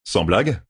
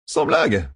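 First: "Sans blague?" rising on blague; questioning. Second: "Sans blague." higher, falling at the end; retorting. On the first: Rand questions Matt's complaint, "Sans blague?" rising at the end. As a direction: ask "Sans blague?" at usual pitch, ending upward. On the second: Matt echoes Rand in retort, "Sans blague." higher then falling. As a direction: fire back "Sans blague." pitched up, ending downward. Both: A narrator's reading.

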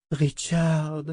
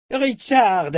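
First: Moaning plea. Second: Richard! called out high and loud; urgent shout. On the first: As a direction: moan his name pleadingly. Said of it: "gémit sa mère". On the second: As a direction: shout his name in warning. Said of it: "répéta-t-il". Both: A narrator's reading.

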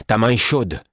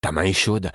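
First: Ta main est chaude shouted higher and louder; alarmed cry. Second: Said in the usual way. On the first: Acted. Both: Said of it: "en m'écriant".

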